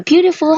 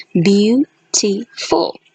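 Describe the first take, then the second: First: Said in the usual way. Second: Slow, syllables pulled apart: "Beautiful" as beau-ti-ful; syllable-by-syllable demo. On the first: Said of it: "So beautiful has three syllables". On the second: Shown as a demonstration. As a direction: stretch "Beautiful" into its three syllables, slowly. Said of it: "It has three syllables".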